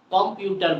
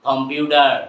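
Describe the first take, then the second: First: "কম্পিউটার" with a crisp T; hard T. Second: "কম্পিউটার" louder, with D for the T. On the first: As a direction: say "কম্পিউটার" as "com-pu-tar". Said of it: "বলবো না". ("কম্পিউটার"-এ শক্ত ট) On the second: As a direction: say "কম্পিউটার" as "com-pyu-der". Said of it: "কি বলবো?". ("কম্পিউটার"-এর ট-কে জোরে ড বলে) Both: Shown as a demonstration.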